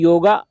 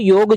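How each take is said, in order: First: The word ends with a final 'a' vowel. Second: The word ends on the consonant 'g'. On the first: This is the imported English form. The speaker calls it wrong. "अंग्रेजी में योगा का शब्द का उच्चारण होता है" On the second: This is the native Hindi form. The speaker calls it right. "Hindi में जो है हम इसको योग जानते हैं"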